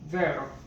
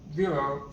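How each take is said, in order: First: It is pronounced the Italian way. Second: It is pronounced the English way.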